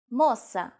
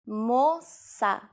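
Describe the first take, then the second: First: Said in the usual way. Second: "moça" stretched into two slow syllables; slow teaching repetition. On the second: Shown as a demonstration. Teacher repeats word slowly. (drawn-out pronunciation model of "moça")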